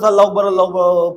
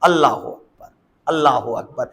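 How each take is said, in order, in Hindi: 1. यह वाक्यांश बिना रुके जल्दी-जल्दी कहा गया है। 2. यह वाक्यांश धीरे-धीरे, बीच में रुक-रुक कर कहा गया है। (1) "ऐसा ना हो कि बस अल्लाह अकबर अल्लाह अकबर पता नहीं क्या कह दिया" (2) "ठहराव होना चाहिए"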